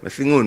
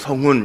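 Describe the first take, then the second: First: The first vowel is the closed 'eu' sound. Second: The first vowel is the open 'eo' sound. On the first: This is how foreigners say it. The speaker calls it wrong. "승훈 막 이래요" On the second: This is the Korean pronunciation. The speaker calls it right. "이 한국식 발음이 외국 사람들이 잘 안 되니까"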